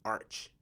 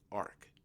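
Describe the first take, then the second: First: The word ends with a 'ch' sound. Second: The word ends with a 'k' sound. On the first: The speaker calls it wrong. "That don't sound right" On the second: The speaker calls it right. "That sound right"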